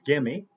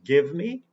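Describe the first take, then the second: First: The two words blend into one reduced word. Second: The two words are said fully and separately.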